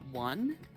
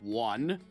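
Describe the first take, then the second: First: It is said in an ordinary voice. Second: It is said in a deeper voice. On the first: The speaker calls it wrong. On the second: The speaker calls it right.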